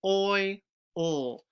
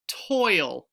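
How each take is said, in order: First: Sounded out slowly; each sound drawn apart; stretched sounds. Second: Said in the usual way. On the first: Shown as a demonstration. Teacher sounding out the next word. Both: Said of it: "Let's do the next one".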